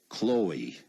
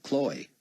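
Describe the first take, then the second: First: Chloe as two syllables, long O, long E; two-syllable name. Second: Chloe squeezed into one syllable, "Kloy"; one-syllable name. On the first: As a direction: say Chloe as "KLOH-ee". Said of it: "Two syllables, long O, long E". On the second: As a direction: say Chloe as "Kloy", rhyming with boy. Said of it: "slip into making it one syllable like". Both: Shown as a demonstration.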